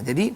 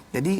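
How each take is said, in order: No difference in how they are said.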